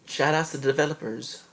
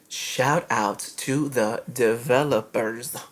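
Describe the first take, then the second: First: It is said fast. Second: It is said slowly.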